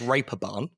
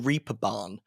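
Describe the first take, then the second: First: It is said differently from its English spelling. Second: It is read the way English spelling suggests. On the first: The speaker calls it right. "But it's pronounced it's pronounced Reeperbahn" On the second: The speaker calls it wrong. "it's spelt the Reeperbahn Festival"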